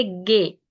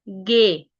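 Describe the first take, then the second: First: गे repeated with a hard g; German G. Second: गे said with a hard g, not जी; गे, a clear hard g; German G. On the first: Teacher repeats the German letter for learners, a hard g in गे. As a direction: say गे, a hard g sound. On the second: Teacher shows German G to Urdu speakers, saying गे with a hard g. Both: Shown as a demonstration. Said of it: "हम यहाँ पे इसको जी नहीं कहेंगे".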